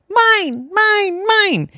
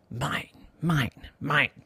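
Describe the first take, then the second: First: High, loud cries of mine; triumphant shouting. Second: Soft, secretive mine; sly gloating. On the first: Boy grabbing his ball back from seagulls, loud triumphant. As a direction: yell it like a possessive little gull. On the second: Boy hiding the ball in his pocket, quiet smug. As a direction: murmur it to yourself, smug and hushed. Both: Acted.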